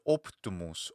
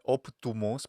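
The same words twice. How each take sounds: First: The middle vowel is short, rounded and centralized. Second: The middle vowel is a full, clear 'oo'. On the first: The speaker calls it right. "such a hesitated sound, it's not a schwa, and such a short sound" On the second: The speaker calls it wrong. "most likely this is actually not optumus"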